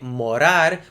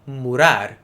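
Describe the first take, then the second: First: The first vowel is an O sound. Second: The first vowel is a U sound. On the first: This is how it is said in Brazil. "in Brazil they continue to say morar with an O sound" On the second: This is how it is said in Portugal. "in Portugal we say murar with an U sound"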